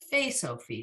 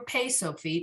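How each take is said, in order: First: The name begins with an F sound. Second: The name begins with a P sound. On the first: The speaker calls it right. "it's always Fay Sophite" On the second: The speaker calls it wrong. "it's never Pay Sophite"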